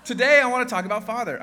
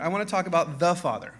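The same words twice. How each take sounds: First: Said in the usual way. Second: "the" before Father leaned on hard, marking the one Father; stress on THE. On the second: Shown as a demonstration. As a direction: punch "the" in "the Father".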